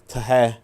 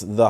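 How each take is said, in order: First: Every letter is sounded out phonetically. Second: The word is said in its usual form. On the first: "this would technically be tahe" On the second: "But it's the heart rate"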